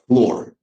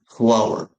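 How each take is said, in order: First: The word rhymes with door. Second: The word rhymes with power. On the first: The speaker calls it wrong. "A lot of people say it as floor" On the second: The speaker calls it right. "The word you can see on the screen is called flower"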